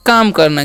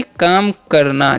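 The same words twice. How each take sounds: First: Said in the usual way. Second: काम करना drawn out slowly for the class; teacher slowly repeating काम करना. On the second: Shown as a demonstration. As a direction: stretch out काम करना so pupils can follow. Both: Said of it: "क्या होता है जी".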